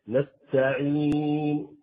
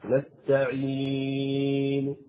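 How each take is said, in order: First: The long vowel is held for four counts. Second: The long vowel is held for six counts. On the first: "هذا أربع حركات" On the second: "هذا ست حركات"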